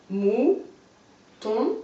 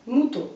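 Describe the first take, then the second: First: Mouton as mou, long pause, ton; split into syllables. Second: Said in the usual way. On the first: Shown as a demonstration. Teacher showing a pupil the syllables, mouton split by a long pause. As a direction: pull mouton apart, each syllable rising alone. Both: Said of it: "On recolle".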